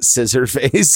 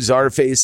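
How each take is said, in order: First: The name begins with the sound 'scissor'. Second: The name begins with the sound 'czar'. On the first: The speaker calls it wrong. "It's not scissor face" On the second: The speaker calls it right. "Czar is a Russian word. It's czar"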